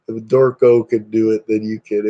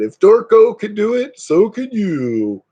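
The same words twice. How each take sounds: First: Said in the usual way. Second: Mock ad pitch. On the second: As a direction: sell it like a hammed-up TV advert, pitched up. Parodies a motivational sales advert.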